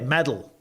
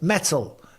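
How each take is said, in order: First: The middle T is soft, like a D. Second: The middle T is a clear T sound. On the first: "It's not like you guys say metal" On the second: "is there a T sound in it? Yeah, there is"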